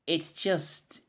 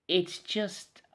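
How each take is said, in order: Both takes have the same delivery.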